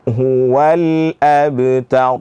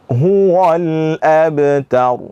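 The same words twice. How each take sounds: First: The w syllable is open and light. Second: The w syllable is rounded and heavy. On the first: The speaker calls it right. "fathah buka kembali mulut" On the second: The speaker calls it wrong. "memonyongkan ataupun me menebalkan huruf waw"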